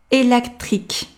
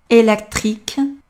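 No difference in how they are said.

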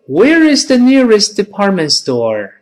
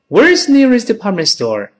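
First: The sentence is spoken at a slow pace. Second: The sentence is spoken at a fast pace. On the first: "再慢一点" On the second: "再快一点"

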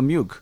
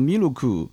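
First: It is said with standard English pronunciation. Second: It is said with a Japanese accent.

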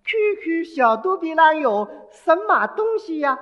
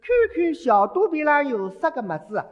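First: It is said in Mandarin. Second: It is said in Shanghainese.

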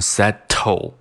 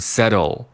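First: The t is a full, clearly released sound. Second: The t is a quick tongue-tip flap. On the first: The speaker calls it wrong. "不把它读成settle" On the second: The speaker calls it right. "而是把它读成settle。settle 是舌尖的一个跳动"

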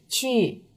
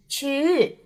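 First: The pitch stays level without a clear drop. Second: The pitch moves upward instead of falling. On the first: "不规范的呢是去、去、去，听上去呢很平" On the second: "有的方言里呢会把第4 声说成上扬的"

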